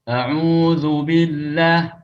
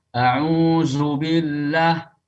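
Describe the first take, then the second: Both takes have the same delivery.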